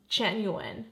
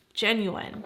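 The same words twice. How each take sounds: The two takes are said the same way.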